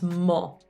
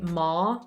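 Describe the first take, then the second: First: The vowel is a rounded 'o' sound. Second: The vowel is an open 'ah' sound. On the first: The speaker calls it right. "it's not ah, it's mo" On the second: The speaker calls it wrong. "in English we say ma"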